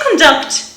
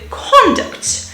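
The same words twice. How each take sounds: First: The stress is on the second syllable. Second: The stress is on the first syllable. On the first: It is used as a verb. "To conduct" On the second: It is used as a noun. "the main accent is shifted to the left"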